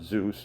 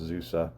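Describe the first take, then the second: First: The name is said as one syllable, like Zeus. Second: The name is said as two syllables, Zoo-seh. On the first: The speaker calls it wrong. "or Zeus if you want to pronounce it that way" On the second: The speaker calls it right. "but it's pronounced Zuse"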